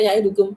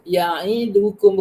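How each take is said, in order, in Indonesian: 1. Satu vokal dipotong pendek dan dibaca tergesa-gesa. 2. Vokalnya dibaca penuh dan rata. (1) "bukan ya'idukum" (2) "kena ya'idukum"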